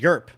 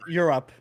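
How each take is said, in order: First: Europe is clipped to one syllable, Yerp. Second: Europe is said in full, two syllables.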